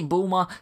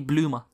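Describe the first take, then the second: First: The name begins with a 'bul' sound. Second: The name begins with a 'bloo' sound. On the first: This is the established English form. "Some say Bulma" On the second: This is the closer rendering of the Japanese. "some say Blooma"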